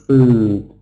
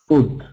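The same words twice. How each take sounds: First: The vowel is long. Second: The vowel is short. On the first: The speaker calls it right. "instead of food" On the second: The speaker calls it wrong. "pronouncing short vowel sound instead of long vowel sounds"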